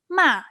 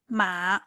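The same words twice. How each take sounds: First: The syllable is said with the fourth tone. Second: The syllable is said with the third tone. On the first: The word means scold. "The fourth tone ma it means scold" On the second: The word means horse. "The third one ma it means horse"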